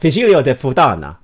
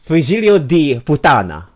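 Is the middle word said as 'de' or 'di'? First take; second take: de; di. First: The middle word has an 'e' vowel. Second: The middle word has an 'ee' vowel. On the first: The speaker calls it wrong. "would make it D instead of de" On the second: The speaker calls it right. "would make it D instead of de"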